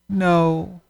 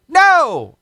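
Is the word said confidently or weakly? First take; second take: weakly; confidently. First: It is said weakly and timidly. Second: It is said firmly and confidently.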